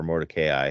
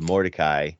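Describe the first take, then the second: First: Mordecai said as "Mor-de-KAY-eye"; alternative pronunciation. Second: Said in the usual way. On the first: Shown as a demonstration. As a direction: say Mordecai with a long AY before the final "eye". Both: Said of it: "however you want to say that".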